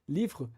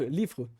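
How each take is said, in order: Both takes have the same delivery.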